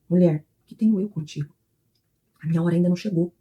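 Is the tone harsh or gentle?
gentle. It is said in a soft, gentle tone.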